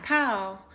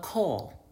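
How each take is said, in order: First: "call" with a plainer vowel, not the Northern one; unemphasized "call". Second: "call" with extra weight on the vowel, Northern style. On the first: Northerner showing how she doesn't say it, unemphasized "call". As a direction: say "call" without the Northern emphasis. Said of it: "put a little more emphasis on the word call". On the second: Northerner showing how she says it, emphasized Northern "call". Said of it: "That's how I say it". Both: Shown as a demonstration.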